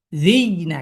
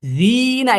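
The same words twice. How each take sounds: First: জি caught on a y before না; sakin on ya. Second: জি stretched high and smooth before না; higher, flowing long জি into না; plain madd. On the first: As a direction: close জি with a pressed y, then release না. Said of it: "সাকিন গ্রহণ করলে তার সাউন্ডটা এমন হয়". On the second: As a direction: hold the vowel of জি long and unbroken, then না. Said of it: "এটা আর হবে না". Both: Shown as a demonstration.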